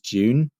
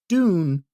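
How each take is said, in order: First: It is said with a British pronunciation. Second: It is said with an American pronunciation. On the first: "the British is June" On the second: "The American is Dune"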